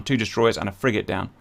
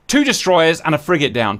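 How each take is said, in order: First: Much softer, lower repeat; quiet. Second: Said in the usual way. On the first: Real, not acted. Gamer repeating the kill tally to himself, quiet. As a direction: echo it to yourself.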